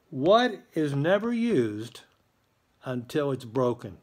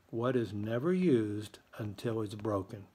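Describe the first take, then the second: First: Slow, drawn-out emphatic question; slow riddle read. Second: Said in the usual way. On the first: Acted. Principal slowly poses the riddle of the day to students. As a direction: lean into each word of the riddle.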